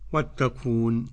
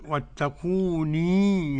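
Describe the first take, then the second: First: The word ends on a short 'n' sound. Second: The word ends with a long 'ee' sound. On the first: The reader stops on this word. "لو وقف كيف يقرأ؟" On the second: The reader continues without stopping. "أثبت الياء وصلا"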